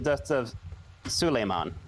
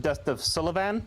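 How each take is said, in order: First: The name sounds like Suleiman. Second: The name sounds like Sullivan. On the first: The speaker calls it right. "It's the dust of Suleiman" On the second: The speaker calls it wrong. "this gentleman mispronounced"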